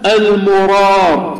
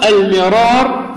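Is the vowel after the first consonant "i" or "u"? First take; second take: u; i. First: The first syllable has the vowel u, Murar. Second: The first syllable has the vowel i, Mirar. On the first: "بضم الميم" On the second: "بكسر الميم"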